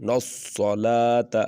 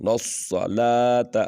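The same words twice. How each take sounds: The two takes are said the same way.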